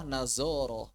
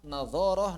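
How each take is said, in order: First: "nazoroh" with a buzzing z in the middle; mispronounced as z. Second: "nadhoroh" with a heavy interdental dh; correct emphatic dh. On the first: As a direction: say "nazoroh" with z replacing the interdental dh. ("nazoroh" dengan bunyi z biasa) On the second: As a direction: say the dh of "nadhoroh" thick, tongue between the teeth. ("nadhoroh" dengan bunyi zha' tebal, lidah di antara gigi) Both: Shown as a demonstration. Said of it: "mengucapkan hadza menjadi haza".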